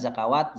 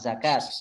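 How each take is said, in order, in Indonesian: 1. Kata ini punya tiga suku kata, ada tambahan wa. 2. Kata ini punya dua suku kata, tanpa tambahan wa. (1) "bacanya bukan zakawat"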